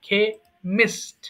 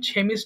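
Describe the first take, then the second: First: The word begins with a k sound. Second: The word begins with a ch sound. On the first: The speaker calls it right. "এটা অবশ্যই কিন্তু কেমিস্ট বলতে হবে" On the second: The speaker calls it wrong. "তার উচ্চারণটা কিন্তু ছেমিস্ট হবে না"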